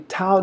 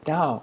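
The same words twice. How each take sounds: First: It is said as the English spelling suggests. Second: It is said the Taiwanese Mandarin way. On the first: The speaker calls it wrong. "if you read it straight, it'd be" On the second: The speaker calls it right. "But here we say Tao"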